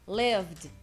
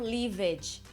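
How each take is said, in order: First: The word ends in a tight 'vd' cluster. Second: The word does not end in a 'vd' cluster. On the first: The speaker calls it right. "vai ser um vd" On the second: The speaker calls it wrong. "e não lived"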